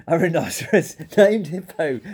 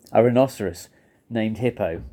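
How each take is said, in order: First: Laughing through the words; howling with laughter. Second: Lower, measured repetition; low disbelief. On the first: Fluffy cries out the rhinoceros's name, laughing. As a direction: break into laughter mid-phrase. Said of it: "He howled with laughter". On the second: Fluffy hears the rhinoceros's name, low disbelief. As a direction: take in the odd name, low and halting. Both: A narrator's reading.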